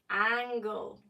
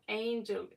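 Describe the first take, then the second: First: It is said like the word angle. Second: It is said like the common word angel. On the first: The speaker calls it right. "it's angle" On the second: The speaker calls it wrong. "It's not angel"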